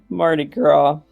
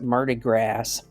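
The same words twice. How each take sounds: First: The final s of Gras is silent. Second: The final s of Gras is pronounced. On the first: It is the usual pronunciation. The speaker calls it right. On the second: It is read the way it is spelled, as a joke. The speaker calls it wrong.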